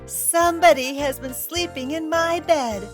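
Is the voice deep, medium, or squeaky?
squeaky. A loud, shrill, little voice is used.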